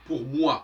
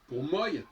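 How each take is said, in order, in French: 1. La voyelle de moi se prononce wa. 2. La voyelle de moi se prononce oy.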